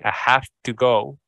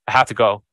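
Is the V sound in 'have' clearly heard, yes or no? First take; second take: yes; no. First: The words are said slowly with a clear V sound in 'have'. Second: The words are said quickly with a weak, barely heard V sound in 'have'. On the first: "you're going to hit that V sound" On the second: "now it's way faster and the V sound is not as loud"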